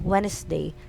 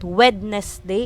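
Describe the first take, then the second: First: The d sound is left out entirely. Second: The d sound is pronounced in the middle. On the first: The speaker calls it right. "it's Wednesday. Silent D" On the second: The speaker calls it wrong. "It's not Wednesday"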